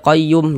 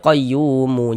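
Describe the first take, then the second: First: The word ends on the consonant m. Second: The word ends with a final u vowel. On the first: The speaker calls it right. "kalau berwakaf di huruf mim kita baca qayyum" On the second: The speaker calls it wrong. "jangan dibaca qayyumu"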